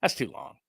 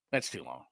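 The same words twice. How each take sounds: First: Said in the usual way. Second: "That's too long" dropped low and much softer, trailing off; a quiet, low aside repeating "That's too long". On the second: Real, not acted. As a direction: let "That's too long" fall away under the breath. Second take much softer.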